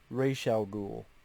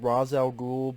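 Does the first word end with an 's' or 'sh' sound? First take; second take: sh; s. First: The first word ends with an 'sh' sound. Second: The first word ends with an 's' sound. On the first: This is how the show says it. "the way they pronounce it here is Raish" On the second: This is how the speaker assumed it was said. "I thought it was pronounced Ra's al Ghul"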